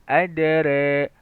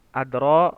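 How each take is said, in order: First: The vowel after r is between a and e. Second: The vowel after r is a plain open a.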